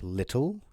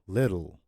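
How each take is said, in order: First: The middle consonant is a crisp hard T. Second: The middle consonant is a soft D. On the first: The speaker calls it wrong. "it's not little" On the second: The speaker calls it right. "double T becomes a soft D"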